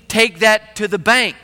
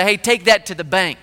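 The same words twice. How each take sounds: First: Slow, literal "Take that to the bank"; literal meaning, slow. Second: Said in the usual way. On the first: Shown as a demonstration. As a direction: spell out the literal sense of "bank". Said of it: "you literally mean". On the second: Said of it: "in a fishing boat".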